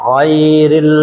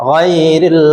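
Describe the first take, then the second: No difference in how they are said.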